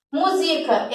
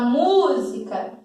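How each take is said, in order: First: MÚSICA misstressed as mu-SI-ca; middle-syllable stress. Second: MÚSICA with a long stressed MÚ; first-syllable stress. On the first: Teacher tests the verb form, middle-syllable stress. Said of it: "Também do verbo musicar". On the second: Teacher says the noun she wants, first syllable stressed. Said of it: "Mas eu quero falar". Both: Shown as a demonstration.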